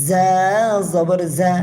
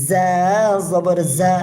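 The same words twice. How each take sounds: The two takes are said the same way.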